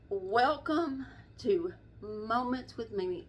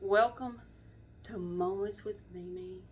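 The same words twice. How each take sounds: First: It is said in a casual, offhand tone. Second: It is said in a very serious tone.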